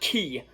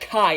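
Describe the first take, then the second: First: The vowel sounds like 'ee'. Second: The vowel sounds like 'eye'. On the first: The speaker calls it wrong. "and not Ki" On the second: The speaker calls it right. "I'm going to pronounce that Kai"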